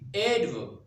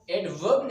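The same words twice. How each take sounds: First: The stress is on the first syllable. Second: The stress is on the second syllable. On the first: The speaker calls it right. "You need to put stress or uh, extend the first syllable" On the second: The speaker calls it wrong. "You need not to put the stress on the verb"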